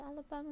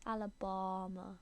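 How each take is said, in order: First: Alabama with a short flat a in the middle, said as alabam; one way of saying it. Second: Alabama with a long open ah in the middle, alabahma; another way of saying it. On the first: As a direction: Alabama clipped, flat a, ending cut short. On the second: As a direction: Alabama drawn out on a broad ah, full ending. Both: Shown as a demonstration. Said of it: "how you're supposed to say Alabama".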